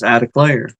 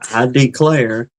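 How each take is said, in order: First: It is said fast, running together. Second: It is said slowly and carefully.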